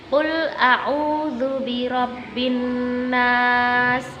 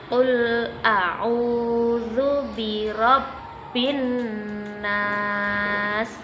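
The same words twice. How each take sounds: First: It is recited at a moderate pace. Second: It is recited slowly and carefully. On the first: "agak lebih cepat daripada at-tahqiq tadi" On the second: "metode membaca Al-Quran dengan pelan-pelan"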